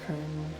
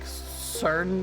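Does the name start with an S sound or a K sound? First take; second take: K sound; S sound. First: The name begins with a hard K sound. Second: The name begins with a soft S sound. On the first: The speaker calls it right. "it is a hard K" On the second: The speaker calls it wrong. "I was calling him, like, Cern Nunos for a long time"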